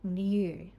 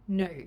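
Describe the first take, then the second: First: A 'y' sound comes before the vowel. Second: No 'y' sound comes before the vowel. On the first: "the Australian or British pronunciation first" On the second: "then the American version"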